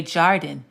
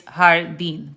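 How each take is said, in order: First: "jardín" with an English J, JAR-din; anglicised "jardín", hard J and front stress; wrong J sound. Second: "jardín" with an H, slowly, har-DEEN; careful Spanish "jardín", breathed H and final stress. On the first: Teacher shows what not to say, "jardín" with English J. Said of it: "wouldn't look at this and say". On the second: Teacher corrects the garden word, "jardín" with J as H. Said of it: "J's are pronounced like H's". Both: Shown as a demonstration.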